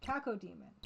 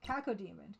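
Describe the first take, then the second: The two takes are said the same way.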